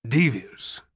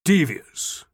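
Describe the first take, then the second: First: Said in the usual way. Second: Laughing aloud. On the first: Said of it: "stopped dead in the road". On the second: A narrator's reading. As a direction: laugh the word out. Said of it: "He laughed aloud".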